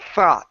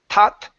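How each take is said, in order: First: It begins with a soft, breathy th sound. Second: It begins with a hard t sound. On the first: The speaker calls it right. "It's thought. / I'm blowing air on the sides" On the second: The speaker calls it wrong. "you don't want to say"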